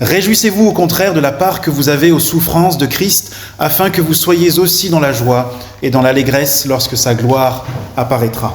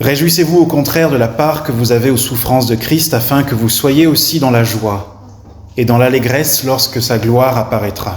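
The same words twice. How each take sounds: No difference in how they are said.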